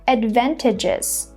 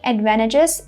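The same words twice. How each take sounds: First: The T after the N is pronounced. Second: The T after the N is silent. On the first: "instead of saying" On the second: "I'm just saying"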